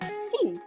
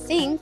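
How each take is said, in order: First: It begins with a hissing s sound. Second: It begins with a th sound, tongue between teeth. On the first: "atau s" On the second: "bahan mentah bunyi th"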